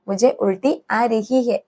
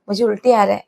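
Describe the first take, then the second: First: Each word of the ending is said separately. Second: The ending is run together into one short word.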